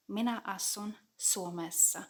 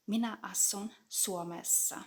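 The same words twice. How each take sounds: The two takes are said the same way.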